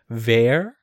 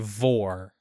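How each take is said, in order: First: The vowel sounds like 'er'. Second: The vowel sounds like 'or'. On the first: This follows the Japanese reading of the name. "in the Japanese pronunciation, according to the katakana that they use, it's more along the lines of Ver" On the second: This follows the English reading of the spelling. "if we went by English pronunciation, it would be Vor"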